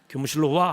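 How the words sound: It sounds stern, like summoning a troublemaker.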